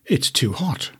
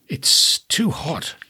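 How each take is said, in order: First: Said in the usual way. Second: Hushed and slow, barely voiced; slow whispered complaint. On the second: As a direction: breathe "it's too hot" as a slow whisper. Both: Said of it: "she said".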